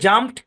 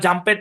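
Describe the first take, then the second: First: The ending joins the word with no extra syllable. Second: The ending is said as a separate syllable. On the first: The speaker calls it right. "এই শব্দগুলোর শুদ্ধ শুদ্ধ উচ্চারণ হচ্ছে জাম্পড" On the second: The speaker calls it wrong. "এগুলো প্রত্যেকটাই ভুল উচ্চারণ। এগুলো জাম্পেড না"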